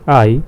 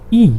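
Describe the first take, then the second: First: The letter is named the English way. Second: The letter is named the German way. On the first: "We say it in English I" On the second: "and in German E"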